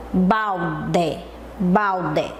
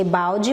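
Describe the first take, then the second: First: "balde" in two slow beats, bal-DE with a full E; low, deliberate "balde", no ji at the end; said as written. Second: "balde" ending in a jee sound; natural spoken ending on "balde", E turned to I; read as spoken. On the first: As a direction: spell out "balde" by sound, hard final de. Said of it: "A gente lê balde, mas lembra?". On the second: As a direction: say "balde" as BAU-ji, final E like I. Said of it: "A gente lê balde". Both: Shown as a demonstration.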